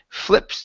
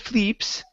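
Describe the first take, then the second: First: The vowel is a short i sound. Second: The vowel is a long ee sound. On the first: The speaker calls it right. "give me a short I" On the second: The speaker calls it wrong. "instead of flee, fleeps"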